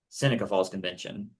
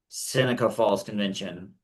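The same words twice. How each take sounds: First: It is said fast. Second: It is said at medium speed.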